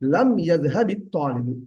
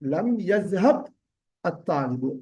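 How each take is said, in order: First: The words are joined with a linking 'i' vowel. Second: The words are said separately without a linking vowel.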